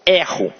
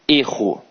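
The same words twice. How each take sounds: First: The stressed e vowel is open. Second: The stressed e vowel is closed. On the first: It is the verb meaning 'I make a mistake'. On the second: It is the noun meaning 'a mistake'.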